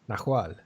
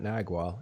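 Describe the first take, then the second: First: The middle consonant is an h sound. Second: The middle consonant is a g sound. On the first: The speaker calls it right. "with an H. That's how you pronounce it" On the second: The speaker calls it wrong. "It's not Nagual"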